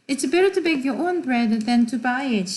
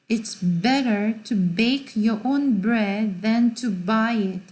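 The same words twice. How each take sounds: First: The B sounds are said naturally, without exaggeration. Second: The B sounds are strongly exaggerated. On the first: "이라고 그냥 하면 돼" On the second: "나는 엄청 과장해서 말을 하는 거죠, 지금"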